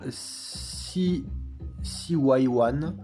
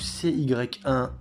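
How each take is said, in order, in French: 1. Le nom se prononce à l'anglaise. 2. Le nom se prononce à la française.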